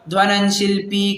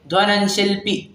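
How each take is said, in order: First: The vowel in shilpi is drawn out long. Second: The vowel in shilpi is kept very short. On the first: The speaker calls it wrong. "ऐसे पढ़ लेगा, परंतु शिल्पी ऐसा नहीं है" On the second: The speaker calls it right. "शिल्पी एकदम short में उसका उच्चारण होगा"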